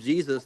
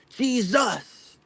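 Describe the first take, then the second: First: The stress is on the first syllable. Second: The stress is on the second syllable. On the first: "they won't call him Jesus" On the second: "they'll put all this emphasis on the second syllable"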